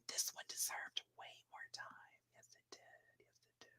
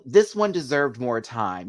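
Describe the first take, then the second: First: Barely audible whisper; hushed whisper, fading to almost nothing. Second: Said in the usual way. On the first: Real, not acted. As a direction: whisper it as a private aside. Same remark repeated under the breath.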